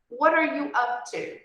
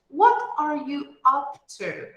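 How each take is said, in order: First: The phrase is spoken quickly, as in natural speech. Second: The phrase is spoken at a slow, careful pace.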